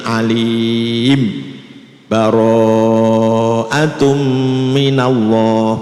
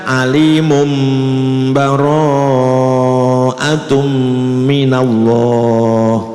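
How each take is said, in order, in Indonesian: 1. Ada jeda singkat yang memisahkan alim dari bara'atum. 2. Alim tersambung ke bara'atum dengan bunyi m. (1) "boleh dibaca apa saktah" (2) "atau dibaca iklab"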